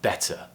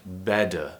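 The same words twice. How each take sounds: First: "better" with a crisp true T, no flap; clear T. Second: "Better" with a D sound for the T; quick tongue tap in "Better", like "bedder"; flapped T. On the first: Teacher contrasts with the flap, "better" with clear T. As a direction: sound the T in "better" as a real T. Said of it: "instead of". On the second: Teacher contrasts accents, "Better" with flapped T. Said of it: "replaced with a D sound". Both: Shown as a demonstration.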